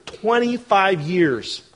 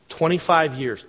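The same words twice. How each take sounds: First: Twenty-five years drawn out very slowly; slow emphatic twenty-five years. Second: Twenty-five years, even and level; twenty-five years said plainly. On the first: Pastor stressing Sarah's long wait, slow weighty repeat. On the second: Pastor counting Sarah's years of waiting, plain first mention. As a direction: say twenty-five years once as a simple fact. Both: Shown as a demonstration. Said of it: "repeats for emphasis".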